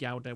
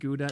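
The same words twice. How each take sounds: First: Gouda is said with a European pronunciation. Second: Gouda is said with an American pronunciation. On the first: "in the Euroland, you pronounce it Gouda with the U" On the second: "In the U S, they pronounce it Gouda"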